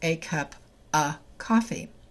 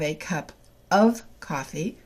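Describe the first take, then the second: First: The word 'of' is reduced to a weak 'a'. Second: The word 'of' is said in full.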